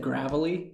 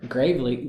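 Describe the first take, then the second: First: The first part sounds like the word gravel. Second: The first part sounds like the word grave. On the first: "I've always said gravelly, like gravel" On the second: "Gravely kind of sounds like bravely"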